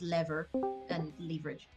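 It is said with an American pronunciation. "but in American English, it's the other way around"

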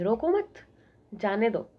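The pause comes after 'mat'.

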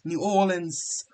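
It is said with an Australian pronunciation. "as the Australians say it. They say New Orleans"

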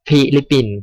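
The word is said with an English accent. "ถ้าอ่านแบบสำเนียงภาษาอังกฤษมันจะเป็น"

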